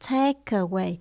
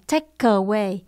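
First: A light K sound links into away. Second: A strong K sound is not linked. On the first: The speaker calls it right. "Mình nói chữ K nhẹ qua bên chữ away" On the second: The speaker calls it wrong. "mình không đọc là"

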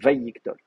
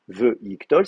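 First: The first syllable has an 'a' vowel. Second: The first syllable has a short 'e' vowel. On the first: The speaker calls it right. "c'est Vayiktol" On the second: The speaker calls it wrong. "Ce n'est pas juste veyiktol"

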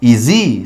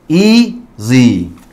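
First: The stress is on the last syllable. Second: The stress is on the first syllable. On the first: The speaker calls it wrong. "No decimos easy" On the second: The speaker calls it right. "sino que decimos easy"

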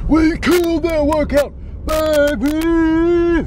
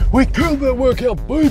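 First: It is said with more enthusiasm. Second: It is said with less enthusiasm.

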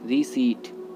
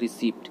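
First: No 'p' sound is heard before the t. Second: A 'p' sound is heard before the t. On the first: The speaker calls it right. "सही होता है रीसीट" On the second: The speaker calls it wrong. "जो कि गलत होता है।"

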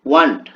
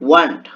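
The two takes are said the same way.

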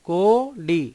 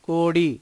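First: The two syllables are said apart, separately. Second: The two syllables are blended into one word. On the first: "ఈ రెండు పదాలని" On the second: "కలిపి మనం కోడి అని రాయొచ్చు"

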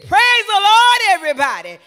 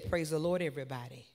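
First: It is said loudly with great energy. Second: It is said plainly and calmly.

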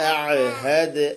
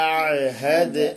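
No difference in how they are said.

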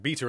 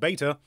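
First: It is said with a British pronunciation. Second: It is said with a non-British pronunciation.

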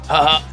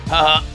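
The two takes are said the same way.

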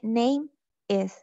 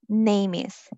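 First: The two words are said with a break. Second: The two words run together without a break. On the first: The speaker calls it wrong. "La mayoría lo dice name is" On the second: The speaker calls it right. "Estas dos palabras van juntas al pronunciarlas"

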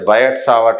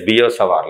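First: The name is said the common anglicized way. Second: The name is said the original way. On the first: This is how people usually say it. The speaker calls it wrong. "People call it as Biot-Savart law" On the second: This is the actual pronunciation. The speaker calls it right. "actual pronunciation is Biot-Savart law"

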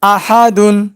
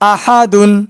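No difference in how they are said.

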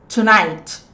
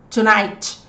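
No difference in how they are said.

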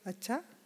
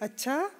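First: It sounds gossipy and intrigued. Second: It sounds surprised.

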